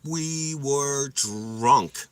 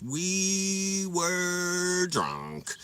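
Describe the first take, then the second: First: Drawn out slowly, weighty; slow emphasis. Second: Very slow, higher, stretched out; drawled drunk emphasis. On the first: Telling viewers we were drunk, slow drawn-out. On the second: Repeating to viewers how drunk, stretched and higher. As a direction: stretch each word like a drunk. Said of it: "we were drunk, guys". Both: Shown as a demonstration.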